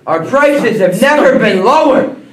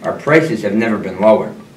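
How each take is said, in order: First: It is yelled loudly. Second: It is said at normal volume.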